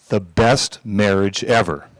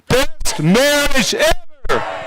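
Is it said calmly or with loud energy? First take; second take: calmly; loud energy. First: It is said calmly, at normal volume. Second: It is shouted loudly with high energy.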